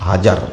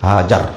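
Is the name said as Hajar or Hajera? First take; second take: Hajar; Hajar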